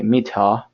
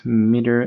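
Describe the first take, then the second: First: "meter" the British way, crisp t, no final r; British pronunciation. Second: American pronunciation. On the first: Teacher trying the UK version for learners, British accent. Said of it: "Something like that is my accent". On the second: Teacher showing learners the US spelling's word, American accent. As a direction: say "Meter" with a US accent. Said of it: "M E T E R is for the U S". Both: Shown as a demonstration.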